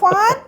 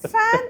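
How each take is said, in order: First: The word has a Malayalam pronunciation. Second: The word has an English pronunciation. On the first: The word is used as Malayalam. "ഫാൻ Malayalam" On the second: The word is used as English. "ഫാൻ English"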